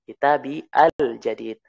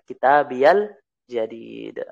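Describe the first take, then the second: First: The two words are said separately, without a ya link. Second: The words are joined with a 'ya' sound between them.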